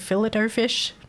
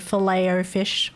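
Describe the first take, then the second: First: Fillet is said the Australian way. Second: Fillet is said the non-Australian way. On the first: "We say fillet o fish" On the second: "We don't say filet o fish"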